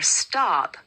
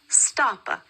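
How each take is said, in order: First: The word ends cleanly on the p sound. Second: An extra vowel follows the final p sound. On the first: The speaker calls it right. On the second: The speaker calls it wrong.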